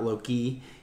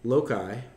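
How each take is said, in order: First: It sounds like the name Loki. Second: It does not sound like the name Loki. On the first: The speaker calls it wrong. "not loci, he was the bad guy in like the first Avengers movie" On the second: The speaker calls it right. "which are called loci"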